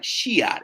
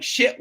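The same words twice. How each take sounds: First: "Shiat" broken into two syllables, Southern style; twanged pronunciation. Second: Said in the usual way. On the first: Shown as a demonstration. Realtor showing the client's curse, "Shiat" as SHEE-at. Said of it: "It was S H E A T". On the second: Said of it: "shit was literally like Shiat".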